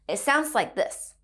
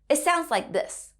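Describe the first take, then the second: Both takes have the same delivery.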